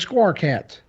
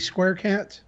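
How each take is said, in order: First: Square is said with a Southern accent, like squar. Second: Square is said with a standard accent. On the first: "here in the South, we pronounce that as squar" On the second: "Maybe it's supposed to be Square Cat"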